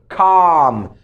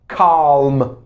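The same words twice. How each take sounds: First: The L sound is silent in the word. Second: The L sound is pronounced in the word. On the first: The speaker calls it right. "silent letters ... the L letter" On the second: The speaker calls it wrong. "We don't say calm. No, no, no"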